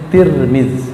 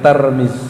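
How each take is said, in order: First: The first syllable has an i vowel. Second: The first syllable has an a vowel. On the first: The speaker calls it right. "orang sana menyebutnya Tirmiz" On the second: The speaker calls it wrong. "bukan Tarmiz"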